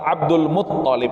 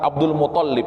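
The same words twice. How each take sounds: First: The name is said the careful, Arabic way. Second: The name is said the casual, familiar way. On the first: This is the proper pronunciation. The speaker calls it right. "Tapi yang benar adalah" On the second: This is how people usually say it. The speaker calls it wrong. "Selama ini kita mengatakan"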